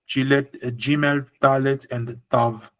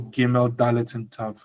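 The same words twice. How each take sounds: First: The first consonants are softened, not full stops. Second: The first consonants are hard G, D, T. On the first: This follows the original Hebrew pronunciation. The speaker calls it right. "in original Hebrew, without a dagesh" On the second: This follows a tradition that lost the original pronunciation. The speaker calls it wrong.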